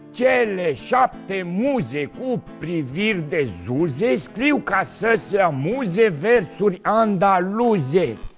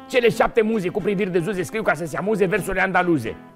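First: It is said slowly and carefully. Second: It is said quickly and briskly. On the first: "Rar la început" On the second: "încă o dată mai repede"

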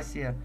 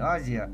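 First: The middle consonant is an s sound. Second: The middle consonant is a z sound. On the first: The speaker calls it right. "истинное название ... а Асия" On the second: The speaker calls it wrong. "не Азия"

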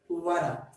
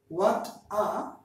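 First: The T is a quick flap, like D. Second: The T is a crisp, released T sound.

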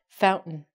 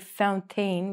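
First: The T and the vowel after it are dropped. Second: The T and the vowel after it are fully pronounced. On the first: The speaker calls it right. "we say fountain" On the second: The speaker calls it wrong. "we don't say fountain"

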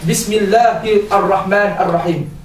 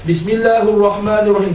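First: The words end with the -i case vowels. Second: The words end without the -i case vowels. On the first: The speaker calls it right. "Dia akan baca Bismillahirrahmanirrahim" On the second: The speaker calls it wrong. "dia takkan baca Bismillahirrahmanirrahim, tak boleh"

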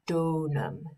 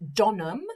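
First: The first vowel is long. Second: The first vowel is short. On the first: The speaker calls it right. "the purpose of them is to make the vowel sound longer" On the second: The speaker calls it wrong. "instead of saying donum"

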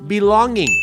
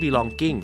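First: The word ends with a hard k sound. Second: The word ends with a clean ng sound. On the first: The speaker calls it wrong. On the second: The speaker calls it right.

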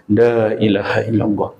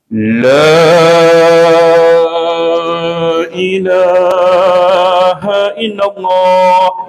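First: It is said at a moderate, even pace. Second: It is drawn out long, like a recitation contest.

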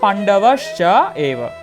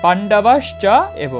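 First: It is said split into three separate parts. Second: It is said split into three separate parts.

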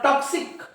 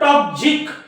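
First: The x is voiceless, sounding like ks. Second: The x is voiced, sounding like gz. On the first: This is how the word is actually said. "पण top झिक उच्चार नव्हता" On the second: This is how the spelling rule predicts it. "याचा उच्चार व्हायला पाहिजे"

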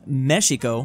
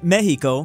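First: The word is said with the original native pronunciation. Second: The word is said with the Spanish pronunciation. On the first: "The original native pronunciation is Mexico" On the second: "the majority of Spain is saying Mexico"

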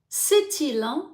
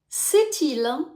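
No difference in how they are said.

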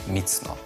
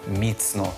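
The two takes are said the same way.

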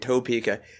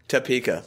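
First: The first vowel is a full 'oh' sound. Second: The first vowel is a reduced 'uh' sound. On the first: This is how outsiders say the name. The speaker calls it wrong. "I love that we're saying Topeka" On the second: This is how locals say the name. The speaker calls it right. "everybody in Kansas says just... Topeka, like it's T-A-P-E-K-A"

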